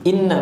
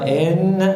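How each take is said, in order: First: The first vowel is short, straight into doubled n. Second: The first vowel is stretched out long. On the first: The speaker calls it right. "Inna langsung masuk ke nun tasydid" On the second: The speaker calls it wrong. "Bukan enna, enggak boleh ... seperti menambah ya sukun"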